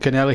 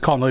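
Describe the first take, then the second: First: The first syllable sounds like 'ken'. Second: The first syllable sounds like 'con'. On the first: The speaker calls it right. "but it was John Kennelly" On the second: The speaker calls it wrong. "people try to pronounce it as Connolly"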